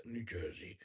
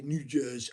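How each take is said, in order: First: A halfhearted try at a New Jersey accent, much lower and softer; failed New Jersey accent. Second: Said in the usual way. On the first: Shown as a demonstration. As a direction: mumble "New Jersey" in a weak attempt at a New Jersey accent. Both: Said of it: "I can't do the New Jersey accent".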